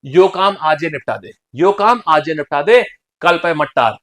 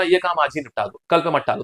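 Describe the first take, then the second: First: Firmer, deliberate Bundeli demo; Bundeli dialect. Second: Said in the usual way. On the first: Shown as a demonstration. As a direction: put on Bundeli village speech. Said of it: "this is बुंदेली भाषा". (बुंदेली लहजे में) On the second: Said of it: "जैसे मान लीजिए आपको बोलना".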